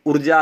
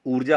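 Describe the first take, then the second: First: ऊर्जा with a short opening 'u', urja; wrong pronunciation. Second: ऊर्जा with a long opening 'oo', oorja; correct pronunciation. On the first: Teacher showing the misspelt word, short-vowel ऊर्जा. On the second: Teacher correcting the misspelling, long-vowel ऊर्जा. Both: Shown as a demonstration. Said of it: "ऊर्जा होती है".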